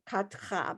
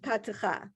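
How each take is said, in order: First: The middle vowel is dropped, leaving two syllables. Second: The middle vowel is said as a full syllable. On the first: "You can ignore the two dots altogether and just go Katcha" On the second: "it's easier with the the ka and the ta"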